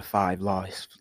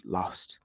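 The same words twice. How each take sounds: First: Put-on accidental touch of a British accent; drawn-out word with a hint of British. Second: Said in the usual way. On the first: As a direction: slip lightly into British English. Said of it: "I did a British accent".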